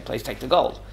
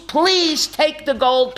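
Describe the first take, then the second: First: Said in the usual way. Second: High, drawn-out imitated plea; pleading. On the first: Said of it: "you wouldn't have to ask me". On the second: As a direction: stretch out "please take the gold" as begging. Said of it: "I beg of you".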